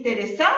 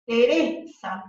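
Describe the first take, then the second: First: "Teresa" stressed on the last syllable, Teresá; misplaced stress. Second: "Teresa" with a lengthened, stressed middle "re". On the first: Teacher challenging a student's answer, "Teresa" wrongly stressed as Teresá. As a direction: push the stress onto the final "sa" of "Teresa", questioning. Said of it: "la sílaba tónica, ¿cuál es de Teresa?". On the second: Teacher showing the class the tonic syllable, "Teresa" stressed te-RE-sa. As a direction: lean on the middle syllable of "Teresa", then fall. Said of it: "la última vocal acentuada de esta sílaba tónica".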